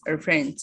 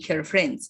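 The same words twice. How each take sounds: First: The h at the start of 'her' is dropped. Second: The h at the start of 'her' is pronounced. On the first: "her friends only" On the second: "Without saying her friends"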